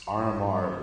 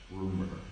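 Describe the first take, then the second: First: The name is spelled out as separate letters. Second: The name is said as one word.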